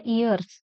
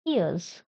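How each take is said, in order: First: "ears" as ee-yers, r sounded; common Indian pronunciation. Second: "ears" as ee-uhz, silent r; actual pronunciation. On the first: Teacher shows how we say it, "ears" with clear r. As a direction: pronounce the r in "ears". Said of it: "we pronounce like that". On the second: Teacher models it for students, "ears" without r. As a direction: drop the r and end "ears" on z. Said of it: "Actual pronunciation is". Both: Shown as a demonstration.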